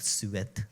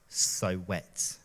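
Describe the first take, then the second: First: It is said with a French accent. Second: It is said with a plain English accent.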